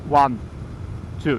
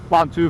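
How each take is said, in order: First: The numbers are counted slowly, spaced apart. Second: The numbers are counted quickly, close together. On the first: Each number takes a real second. The speaker calls it right. "It's like one, two. That's two seconds" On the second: The count is shorter than real seconds. The speaker calls it wrong. "Don't count one, two, three. No, no, that's not seconds"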